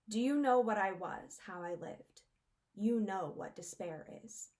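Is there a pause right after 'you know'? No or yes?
no. "You know what despair is" flows without a pause.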